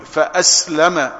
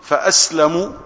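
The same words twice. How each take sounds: First: فأسلم said "fa-aslama", closing on a; fatha ending. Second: فأسلم said "fa-aslamu", closing on u; damma ending. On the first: Preacher explaining the other narration, read with final fatha. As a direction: end فأسلم on an open short a. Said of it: "ومن قرأها بالفتح". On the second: Preacher explaining the first narration, read with final damma. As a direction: end فأسلم on a clear short u. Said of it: "فمن قرأها بالضم". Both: Shown as a demonstration.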